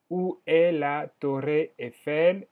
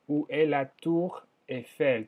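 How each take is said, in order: First: "Torre" dicho a la española, con erre vibrada; error con Torre. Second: "Tour" con u cerrada y erre francesa; Tour francés. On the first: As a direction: dice "Torre" como en castellano, despacio. (la profesora dice "Torre" en español) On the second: (la profesora corrige: "Tour" pronunciado en francés) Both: Shown as a demonstration. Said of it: "Torre se dice tour".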